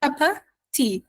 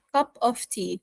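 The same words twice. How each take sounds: First: "Cup of tea" run together as "cuppa tea"; American reduced "of". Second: "Cup of tea" with "of" fully sounded, v included; basic full pronunciation. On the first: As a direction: drop the v of "of" in "Cup of tea", leaving a schwa. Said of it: "We delete the off completely". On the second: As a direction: keep every word of "Cup of tea" distinct. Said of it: "we don't say it as Americans this way". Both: Shown as a demonstration.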